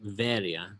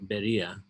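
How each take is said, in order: First: The name begins with a V sound. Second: The name begins with a B sound. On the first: This is the modern Greek pronunciation. "in modern Greek, we pronounce it Veria. The B becomes V in Greek" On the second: This is the form used by Protestant churches. "Protestant churches. Many of them are named Beria"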